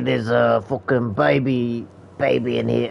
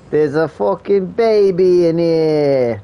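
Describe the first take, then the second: First: It is said in a British accent. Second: It is said in an Italian accent. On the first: "Why did I say it like a British person?" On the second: "How do I say baby in an Italian accent?"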